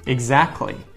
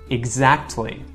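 First: The T sound is dropped before the L. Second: The T sound is pronounced before the L.

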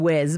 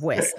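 First: The name ends with a buzzing z sound. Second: The name ends with a hissing s sound. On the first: This is the British way to say it. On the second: This is the North American way to say it.

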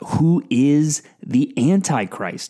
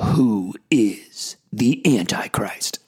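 First: It is said in a normal speaking voice. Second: It is said in a dramatic movie-trailer voice.

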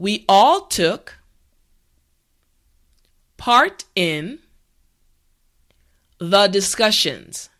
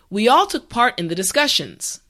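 First: The sentence is said slowly and carefully. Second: The sentence is said at a regular pace.

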